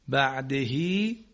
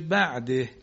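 First: The word ends with a short vowel after h. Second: The word ends on a silent final h.

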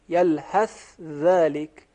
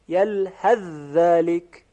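First: The 'th' sound is pronounced clearly before 'dhalika'. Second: The 'th' sound merges into the following 'dh'. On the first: "در حالت اظهار که حرف سا تلفظ می شود" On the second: "در حالت ادغام"

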